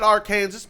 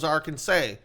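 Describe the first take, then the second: First: The word ends with a full 'zas' sound. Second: The word ends with a trailing 'saw' sound. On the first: This was the original full form of the name. "we had we had Arkansas" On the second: The ending was dropped through lazy Southern speech. "we tend to trail off the end of our words, so it was Arkansas"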